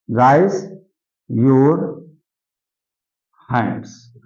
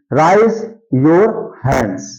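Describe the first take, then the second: First: Slow, with a long pause after each word; word-by-word dictation. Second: Said in the usual way. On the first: Shown as a demonstration. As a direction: dictate "raise ... your ... hands" for writing. (शब्द-दर-शब्द रुककर लिखवाते हुए)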